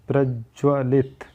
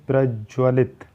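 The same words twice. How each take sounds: Both takes have the same delivery.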